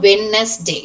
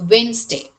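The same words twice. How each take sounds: First: The d sound is pronounced. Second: The d sound is silent. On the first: The speaker calls it wrong. "It is not Wednesday" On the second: The speaker calls it right. "just assume that D is silent letter here"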